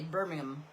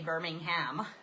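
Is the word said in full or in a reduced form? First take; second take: reduced; full. First: The name is said quickly with syllables reduced. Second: Every syllable of the name is said clearly. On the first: "being lazy with your speech" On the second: "they don't say Birmingham"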